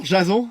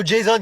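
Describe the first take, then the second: First: Jason said the French way, zha-ZON; French pronunciation. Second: Jason said the American way, JAY-son; American pronunciation. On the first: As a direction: say Jason as a French name, soft zh and nasal end. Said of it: "ça se prononce plutôt Jason". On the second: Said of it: "comme à l'américaine". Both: Acted.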